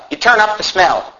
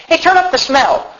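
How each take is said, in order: First: Said in the usual way. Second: High-pitched call across the room; acted call-out. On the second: Viewer asking for the TV smell turned up, acted call-out.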